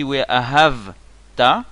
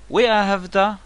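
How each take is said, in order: First: We Ahavta slow, long HAV, then separate ta; wrong stress. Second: We Ahavta high, in one flow to final TA; correct stress. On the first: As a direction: drag the hav of "We Ahavta" and break. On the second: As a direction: land "We Ahavta" on the last syllable. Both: Shown as a demonstration. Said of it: "si on prononce mal".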